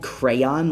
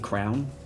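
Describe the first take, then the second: First: The word is said with two syllables. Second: The word is said as one syllable. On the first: "instead of saying crayon, like the thing that you draw with" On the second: "I say the thing that you put on your head and the thing that you draw with the exact same way"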